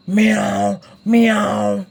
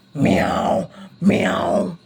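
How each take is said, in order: First: Voiced meow for a big cat. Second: Low whispered cat meows. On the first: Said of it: "Ang big na cat ni Spider-Man, what's the sound?". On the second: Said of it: "what's the sound?". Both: Shown as a demonstration.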